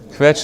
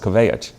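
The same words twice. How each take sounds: First: The word has a single short vowel. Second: The vowel is drawn out into two sounds. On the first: "there's only one one vowel in there" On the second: "it becomes two two vowels"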